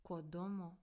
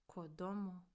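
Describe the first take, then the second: Both takes have the same delivery.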